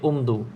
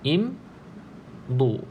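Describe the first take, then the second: First: The word begins with a 'u' vowel. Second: The word begins with an 'i' vowel. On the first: The speaker calls it wrong. "kita tak baca umdu" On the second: The speaker calls it right. "Contoh perkataan yang saya ingat"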